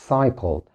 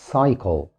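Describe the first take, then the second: No difference in how they are said.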